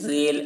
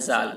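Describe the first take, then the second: First: The letter name has an e-like vowel. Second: The letter name has an aa-like vowel. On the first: The speaker calls it wrong. "मजहूल नहीं पढ़ा गया है" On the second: The speaker calls it right. "मारूफ पढ़ा गया है"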